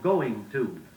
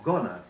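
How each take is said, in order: First: Each word is said carefully in full. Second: The words are run together carelessly. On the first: The speaker calls it right. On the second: The speaker calls it wrong.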